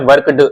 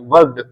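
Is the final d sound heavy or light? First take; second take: heavy; light. First: The final d is pronounced heavily and separately. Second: The final d is barely heard, light. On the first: The speaker calls it wrong. "वर्कड ऐसे बोलो तो थोड़ा गलत हो जाएगा" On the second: The speaker calls it right. "डी का कई बार sound आएगा भी, वर्कड ऐसा आ जाएगा"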